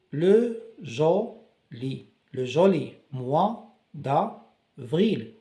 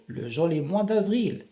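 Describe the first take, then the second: First: Slow, syllable by syllable; le joli mois d'avril stretched word by word; sounded out. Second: Said in the usual way. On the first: Shown as a demonstration. Teacher to class, slowly sounding out the phrase. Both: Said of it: "on découpe les mots pour bien prononcer".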